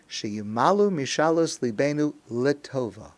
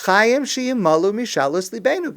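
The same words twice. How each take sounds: First: Said in the usual way. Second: Raised, louder Hebrew plea; insistent prayer. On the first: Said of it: "The words of the prayer are". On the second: Shown as a demonstration. Worshippers asking God to grant their wishes, insistently. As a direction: press it as a demand on God. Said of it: "but that's not exactly what we say".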